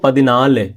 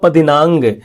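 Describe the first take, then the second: First: The word ends with an l sound. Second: The word ends with an ng sound. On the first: This is the everyday spoken form. "आम बोलचाल में ऐसा होता है" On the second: This is the written, formal form. "ये हो गया लिखने वाली"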